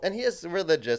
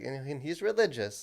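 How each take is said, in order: First: It is said in a plain, matter-of-fact way. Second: It is said hesitantly, with audible discomfort. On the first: It is simply a neutral fact. "it's not like" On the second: It is treated like a shameful secret. "like almost like it's like some dirty secret"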